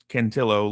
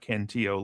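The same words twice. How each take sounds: First: The middle consonant is a clear L sound. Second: The middle consonant is a Y sound. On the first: The name is Italian. The speaker calls it right. "like tortellini" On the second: The speaker calls it wrong. "not Cantillo, like tortilla"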